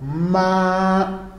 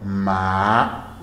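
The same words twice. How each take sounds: First: The pitch stays high and level. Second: The pitch rises from middle to high. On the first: "No primeiro tom" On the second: "No segundo tom"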